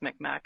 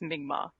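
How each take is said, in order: First: The middle consonant sounds like a hard k. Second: The middle consonant sounds almost like a g. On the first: This is the older pronunciation. "the old old school was Micmac" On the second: This is the current, decolonized pronunciation. "now we say it like in Mi'kmaq"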